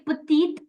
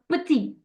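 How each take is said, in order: First: The word ends with an audible t sound. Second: The word ends in a vowel, no t sound. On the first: The speaker calls it wrong. "I don't say petite until unless it's followed by a vowel" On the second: The speaker calls it right. "If I say the word uh, petit"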